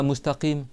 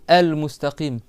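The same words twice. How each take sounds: First: MUSTAQIM alone, no "el" before it; article missing. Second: EL MUSTAQIM with "el" sounded clearly first; resume on the full el mustaqim; article included. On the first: Teacher shows the wrong restart, article left off. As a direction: start bare on mustaqim. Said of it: "il dit pas plus loin". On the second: Teacher models the correct restart, article sounded. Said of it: "Il doit reprendre". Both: Shown as a demonstration.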